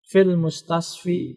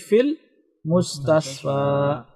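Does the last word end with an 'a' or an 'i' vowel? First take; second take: i; a. First: The last word ends with an 'i' vowel. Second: The last word ends with an 'a' vowel. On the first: The speaker calls it wrong. "Tidak kita baca fil mustasfi" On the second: The speaker calls it right. "menjadi fil mustasfa"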